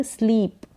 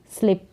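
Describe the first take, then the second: First: स्लीप with a long ee; long ee sound. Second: स्लिप with a short i; short i, mispronounced. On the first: English teacher modelling the word for sleep, long-ee स्लीप. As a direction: stretch the vowel in स्लीप to a long ee. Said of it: "बड़ी ई का sound". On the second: English teacher showing the mistaken reading, short-i स्लिप. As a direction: cut the vowel in स्लिप short, no long ee. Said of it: "ना कि स्लिप". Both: Shown as a demonstration.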